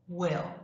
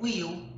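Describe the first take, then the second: First: The vowel is open, close to an 'eh' sound. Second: The vowel is a tense, closed 'ee' sound. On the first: The speaker calls it right. "Ele é um pouquinho mais aberto, quase que com um som de E" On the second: The speaker calls it wrong. "Não é I, como I no português"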